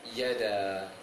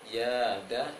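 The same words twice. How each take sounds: First: The vowel is kept short. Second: The vowel is held long. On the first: "kalau pendek yada" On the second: "Yada itu panjang"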